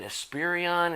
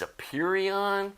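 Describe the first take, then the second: First: The name is said with an added 's' sound. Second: The name is said without an 's' sound. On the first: The speaker calls it wrong. "I was saying Esperion, ... when I added the S in there" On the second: The speaker calls it right. "I guess it's Aperion"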